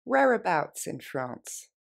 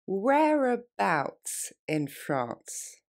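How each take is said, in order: First: Quicker everyday pace; faster, natural. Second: Very slow, spelled-out delivery; slowly. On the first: Teacher modeling the natural version for learners. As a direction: say it like a native would. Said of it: "Plus rapidement, plus naturellement". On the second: Teacher repeating slowly for French students. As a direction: stretch the phrase out for learners. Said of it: "On reprend". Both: Shown as a demonstration.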